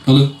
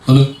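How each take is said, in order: No difference in how they are said.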